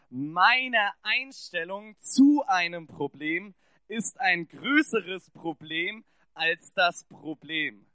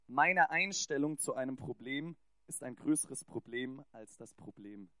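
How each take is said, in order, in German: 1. Er wird kraftvoll gesprochen, mit von Herzen kommender Überzeugung. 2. Er wird schlicht und neutral gesprochen.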